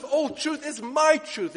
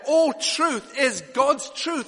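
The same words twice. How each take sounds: First: Slow, "my" pushed out higher as the key word; stress on my. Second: Slow, "God's" leaned on with a falling tune; stress on God's. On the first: Preacher voicing Jesus' claim, slow stress on my. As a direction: hit "my" hard, unhurried. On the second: Preacher drives home whose truth it is, slow stress on God's. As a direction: weigh "God's" heavily and slowly. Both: Acted.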